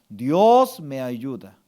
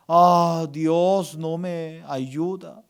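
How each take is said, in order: First: Slow, low, with "Dios" drawn out; firm affirmation. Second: Slow, drawn-out complaint; mock lament. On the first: Shown as a demonstration. Pastor gives congregation words to accept, slow firm affirmation. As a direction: declare it as settled truth. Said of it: "Usted tiene que aceptar". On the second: Pastor voices words to eliminate, slow mock lament. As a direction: groan it out like a discouraged believer. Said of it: "Usted tiene que eliminar tres palabras".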